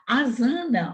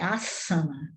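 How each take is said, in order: First: The middle consonant is a buzzing z sound. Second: The middle consonant is a hissing s sound. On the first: The speaker calls it wrong. "o S entre vogais tem o som de Z" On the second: The speaker calls it right. "o S é igual dois S aqui"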